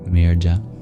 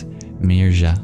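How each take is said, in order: First: The middle consonant is a stop closure. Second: The middle consonant is a breathy, aspirated y. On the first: "If it represents a palatal plosive" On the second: "If it represents a palatal aspirated approximant"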